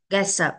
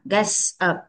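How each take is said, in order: First: "Gets up" joined into one word; linked sounds. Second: "gets up" in two careful parts; separated words. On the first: Teacher shows children linking, "Gets up" run together. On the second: Teacher breaks it down, "gets up" said word by word. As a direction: leave a small gap inside "gets up". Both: Shown as a demonstration. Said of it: "Mình nối âm qua".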